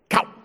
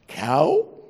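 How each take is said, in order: First: The word is cut off short and sharp. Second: The pitch rises through the word. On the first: "Or you have abrupt" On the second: "you have rising inflection"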